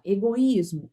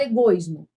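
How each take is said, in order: First: "egoísmo" as e-go-ÍS-mo, vowels separate; teacher keeping o and i apart in "egoísmo"; hiatus pronunciation. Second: "egoísmo" run together as e-GOIS-mo; wrong diphthong version. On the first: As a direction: stress a distinct "í" after the o in "egoísmo". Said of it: "Eu pronuncio as, todas elas". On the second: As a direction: merge o and i of "egoísmo" into one stressed syllable. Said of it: "eu não falo egoísmo". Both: Shown as a demonstration.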